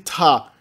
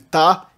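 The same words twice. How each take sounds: First: The t is followed by a puff of air. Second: The t is plain, with no puff of air. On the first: "a oclusiva aspirada" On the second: "a oclusiva simples"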